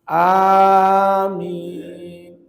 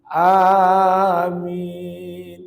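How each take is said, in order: No difference in how they are said.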